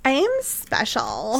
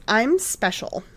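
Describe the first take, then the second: First: Slow, creepy ghost voice; eerie witch voice. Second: Put-on ditzy Valley Girl voice; airy, upspeak Valley Girl. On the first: Retold or imitated. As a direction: say it like a haunting spirit. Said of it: "I'm sure she didn't say it like a Valley Girl". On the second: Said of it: "like a Valley Girl like I did".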